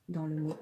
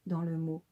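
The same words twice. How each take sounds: The two takes are said the same way.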